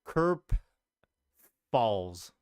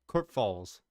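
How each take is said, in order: First: "Kerp" said alone, then a long pause before "Falls"; careful first try. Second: "Kerp Falls" said smoothly in one go with a mock German accent; a quick stab at German, "Kerp Falls" as one phrase; attempted German accent. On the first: Streamer reading a viewer's German town aloud, halting first try. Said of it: "I'm gonna try to pronounce this". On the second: Streamer retries the German town name with a shaky German accent. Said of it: "I don't really have my German accent down". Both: Shown as a demonstration.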